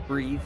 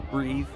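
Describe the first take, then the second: No difference in how they are said.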